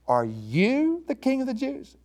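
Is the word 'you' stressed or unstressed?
stressed. The word 'you' is strongly emphasized.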